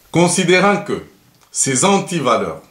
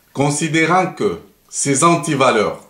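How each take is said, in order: Both takes have the same delivery.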